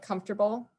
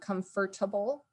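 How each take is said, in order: First: It is said in a shortened, reduced everyday form. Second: Every syllable is said fully, the way it's spelled. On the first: This is the everyday way people say it. The speaker calls it right. "like I just said" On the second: This follows the written form, not everyday speech. The speaker calls it wrong. "I wasn't saying comfortable because that's not how I say it"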